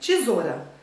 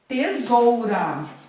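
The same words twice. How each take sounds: First: The 'ou' is reduced to a plain 'o'. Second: The 'ou' is pronounced as a full diphthong. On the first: This is casual everyday speech. "Às vezes a gente fala até tesoura" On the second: This is the formal form used in writing. "Mas como que eu vou escrever?"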